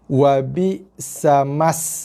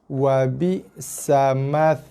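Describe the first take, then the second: First: The consonant after 'ma' is an 's' sound. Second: The consonant after 'ma' is a 'th' sound. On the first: The speaker calls it wrong. "ramai yang baca dua-dua dengan bacaan huruf sin" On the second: The speaker calls it right. "Yang ni tha"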